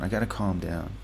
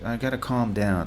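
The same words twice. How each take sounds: First: "I gotta calm down" said lower and softer, settling; calming himself down. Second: Said in the usual way. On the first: Real, not acted. Alone at his desk, reining in his excitement, quietly. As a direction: talk yourself down, easing off.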